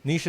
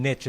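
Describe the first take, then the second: First: Niche rhyming with leash; French-style niche. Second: Niche with short i, hard ch ending; niche rhyming with pitch; American-style niche. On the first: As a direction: say niche as "neesh". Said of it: "like, French". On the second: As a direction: say niche as "nitch". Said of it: "the American version". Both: Shown as a demonstration.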